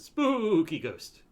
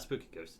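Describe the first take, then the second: First: It is said in an eerie, put-on spooky voice. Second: It is said in an ordinary, plain voice. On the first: The speaker calls it right. "that's how you have to say it every time" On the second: The speaker calls it wrong. "It's not a spooky ghost"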